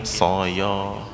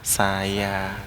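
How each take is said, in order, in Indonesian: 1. Vokalnya berat, bunyi 'o' yang membulat. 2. Vokalnya ringan, bunyi 'a' yang terbuka. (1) "nggak mungkin soyo" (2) "Tapi kalau yang istifal, sedikit senyum"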